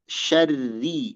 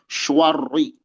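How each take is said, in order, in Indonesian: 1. Bunyi sh dan r tipis. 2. Bunyi sh dan r tebal. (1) "shin dibaca tipis dan ro dibaca tipis" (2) "bukan syarri ... itu keliru"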